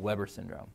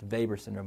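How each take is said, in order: First: The name is said in its traditional English pronunciation. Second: The name is said in its original pronunciation. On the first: "let's stick with the traditional" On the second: "It really should be pronounced"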